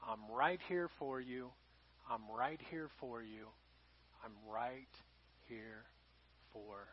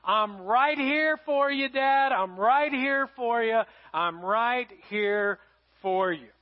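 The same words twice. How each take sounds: First: God reassuring the listener in a much softer, low voice; tender God's voice. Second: Reassuring daughter. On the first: Acted. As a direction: speak it softly, like a gentle whisper of comfort. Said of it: "And he said". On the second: Retold or imitated. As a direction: promise it slowly and firmly. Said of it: "she said these words".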